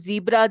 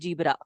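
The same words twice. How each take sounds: First: The word begins with a clear z sound. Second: The word begins without a clear z sound.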